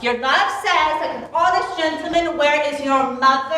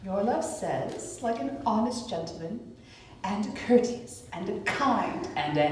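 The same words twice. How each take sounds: First: Echoing her words mockingly; mock the odd answer; mocking repeat. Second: Teasing. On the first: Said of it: "How oddly thou repliest". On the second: Acted. Nurse teasingly drags out Romeo's answer.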